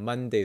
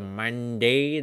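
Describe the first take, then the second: First: It is said in a standard American accent. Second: It is said in a deep Southern accent.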